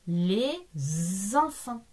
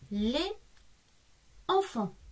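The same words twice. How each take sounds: First: A z sound links the two words. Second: The words are said without a linking z sound. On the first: The speaker calls it right. "ce S chante z" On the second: The speaker calls it wrong. "Ça fait un peu bizarre"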